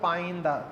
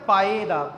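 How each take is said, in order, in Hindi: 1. पहले शब्द के अंत में एक अतिरिक्त n की ध्वनि है। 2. पहला शब्द एक सादे स्वर की ध्वनि पर खत्म होता है। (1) "ਆਮ ਤੌਰ 'ਤੇ ਰਾਗੀ ਜਿੱਥੇ ਪੜ੍ਹਦੇ ਆ ਪਾਇਨ ਦਾ" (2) "ਲਫ਼ਜ਼ ਹੈ ਪਾਏ ਦਾ"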